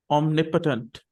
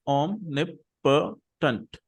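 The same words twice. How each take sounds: First: Said in the usual way. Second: Omnipotent drawn out very slowly, syllable by syllable. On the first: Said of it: "the word is pronounced like this". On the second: Shown as a demonstration. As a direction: spell the four syllables of omnipotent out slowly for the class. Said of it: "So there are four syllables".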